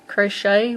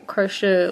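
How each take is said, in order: First: The word ends with a 'shay' sound. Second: The word ends with a 'sher' sound. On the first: "with, you know, S H A Y on the end" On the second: "like E R on the end"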